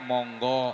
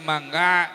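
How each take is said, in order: First: It is said with Javanese rounded o vowels. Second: It is said with Sundanese open a vowels.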